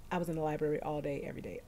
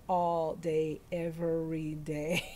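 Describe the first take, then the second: First: Said in the usual way. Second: "All day, every day" drawn out slowly, word by word; emphatic repeat. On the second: Real, not acted. Recalling endless library study, emphatic slow "All day, every day".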